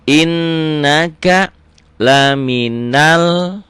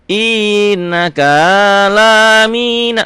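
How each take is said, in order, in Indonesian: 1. Hanya vokal panjang yang ditandai yang dipanjangkan. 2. Vokal pendek yang tidak ditandai dipanjangkan panjang. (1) "penekanannya di mad" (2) "Jadi nggak boleh innaka lamina, nggak boleh"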